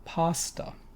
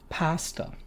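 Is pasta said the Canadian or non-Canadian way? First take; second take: non-Canadian; Canadian. First: Pasta is said in a non-Canadian accent. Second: Pasta is said in a Canadian accent. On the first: "And you say?" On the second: "how do they pronounce the category of food that spaghetti is in?"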